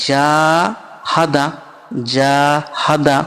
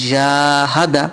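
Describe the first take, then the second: First: জাহাদা with the first জা stretched long, the rest short; জাহাদা: জা held one alif long; long first vowel. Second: জাহাদা read with no marked stretch; quick reading. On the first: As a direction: draw out the জা in জাহাদা, keep হা and দা short. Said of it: "জাটা কেন টান দিলাম". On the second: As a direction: say জাহাদা once. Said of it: "কেন?". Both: Shown as a demonstration.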